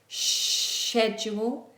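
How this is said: It begins with an sh sound. "British English is like a sh fricative"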